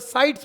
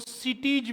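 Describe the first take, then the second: First: The first vowel sounds like 'eye'. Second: The first vowel sounds like 'ee'. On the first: The speaker calls it right. "साइट्स बोला जाएगा ये" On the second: The speaker calls it wrong. "इसको सिटीज भी बोल देते हैं, लेकिन ये गलत है"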